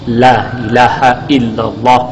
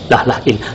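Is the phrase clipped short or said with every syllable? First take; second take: full; clipped. First: The phrase is quick but every syllable is kept. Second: The phrase is rushed and clipped, dropping syllables. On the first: The speaker calls it right. "beliau memberikan contoh paling cepat" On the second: The speaker calls it wrong. "jangan dikurangi dalam keadaan cepat. Contoh yang salah"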